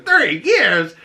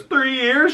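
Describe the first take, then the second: First: Shocked echo. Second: Unsure squeak. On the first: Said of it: "She goes". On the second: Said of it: "And he goes". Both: Retold or imitated.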